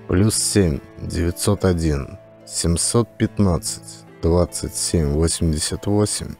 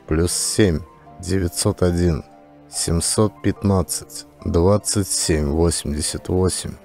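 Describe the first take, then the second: No difference in how they are said.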